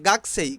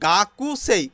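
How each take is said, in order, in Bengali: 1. k-এর পরের 'u' বাদ পড়ে যায়। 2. k-এর পরের 'u' স্পষ্ট শোনা যায়। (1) "জাপানিজরা উচ্চারণ করে গাকসেই" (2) "এখানে গাকুসেই"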